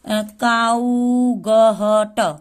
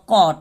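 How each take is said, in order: First: It is said with an ow sound and g-h sounds. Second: It is said as one short syllable, no g-h. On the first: The speaker calls it wrong. "ऐसे सोचेंगे" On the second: The speaker calls it right. "जी एच silent होता है"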